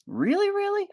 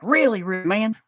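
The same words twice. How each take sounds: First: Squeaky high disbelieving really really; very high doubtful. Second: High put-on voice, affirming really really; high insisting. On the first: Pretend. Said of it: "And you'll be like". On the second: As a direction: insist back in a goofy voice. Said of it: "I'm like".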